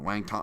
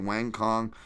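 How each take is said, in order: First: The second word begins with a T sound. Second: The second word begins with a K sound. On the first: The speaker calls it right. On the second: The speaker calls it wrong.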